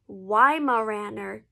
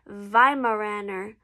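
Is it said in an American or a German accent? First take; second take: American; German. First: It is said the American English way. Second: It is said the traditional German way.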